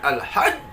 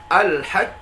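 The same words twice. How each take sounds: First: The word is said with added raised accent. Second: The word is said plain, without added raised accent. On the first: The speaker calls it wrong. "jangan ... nggak perlu" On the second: The speaker calls it right. "kita tahan qalqalahnya"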